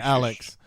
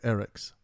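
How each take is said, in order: First: The name is said with a clear L sound. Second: The L sound is replaced with an R. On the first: "instead of saying Alex" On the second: "they would say Eric's. The ones with really thick accents"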